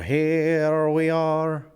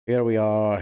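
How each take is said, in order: First: Here we are stretched very slowly and higher; drawn-out call. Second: Said in the usual way. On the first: Shown as a demonstration. Streamer announcing the character's arrival, stretched slow call.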